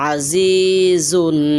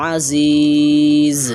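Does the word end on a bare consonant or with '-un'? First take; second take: -un; bare consonant. First: The word ends with a final '-un' sound. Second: The word stops on a bare final consonant. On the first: The reader continues without stopping. "এখানে আছে আজিজুন" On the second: The reader stops at this word. "এখন যদি আপনি থামেন তাহলে হবে আজিজ"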